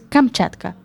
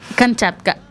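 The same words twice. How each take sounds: First: The word is pronounced carefully and clearly. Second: The word is pronounced clumsily and badly. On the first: The speaker calls it right. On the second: The speaker calls it wrong.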